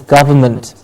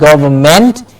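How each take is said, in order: First: The ending is reduced to an int sound. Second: The ending has a full ent vowel. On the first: The speaker calls it right. "it's government" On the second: The speaker calls it wrong. "Not government"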